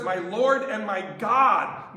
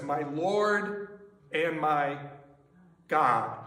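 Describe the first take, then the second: First: Slow and louder, Lord stressed; proclaimed confession. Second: Slow, low and hushed, God dropped lower; awed confession. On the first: Preacher proclaiming Thomas's words, loud and firm. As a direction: declare it to the room. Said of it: "He says". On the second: Thomas meeting Jesus, hushed awed confession. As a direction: breathe it out in awe. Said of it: "He says, "My Lord and my God". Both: Shown as a demonstration.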